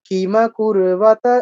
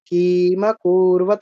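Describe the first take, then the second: First: The vowels are kept short. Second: A vowel is drawn out long. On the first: The speaker calls it right. "এরকম" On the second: The speaker calls it wrong. "এরকম নয়, এটা কিন্তু দীর্ঘ হয়ে গেল"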